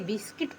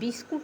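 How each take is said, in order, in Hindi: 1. दूसरा अक्षर 'i' स्वर के साथ बोला जाता है। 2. दूसरा अक्षर 'u' स्वर के साथ बोला जाता है। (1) "बिस्किट पढ़ेंगे" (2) "यू का उच्चारण इसमें नहीं हुआ है, बिस्कुट नहीं पढ़ेंगे"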